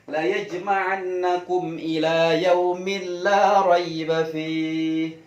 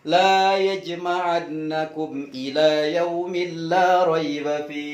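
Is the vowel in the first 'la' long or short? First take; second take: short; long. First: The vowel in the first 'la' is short. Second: The vowel in the first 'la' is long. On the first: God will surely gather you. The speaker calls it right. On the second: God will not gather you. The speaker calls it wrong.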